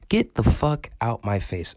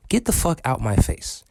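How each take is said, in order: First: "Get the fuck out my face" slowed, each word spaced; slow emphatic repeat. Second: Said in the usual way. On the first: Real, not acted. Ranting vlogger, telling critics off slowly and pointedly. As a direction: drag it out, word by word.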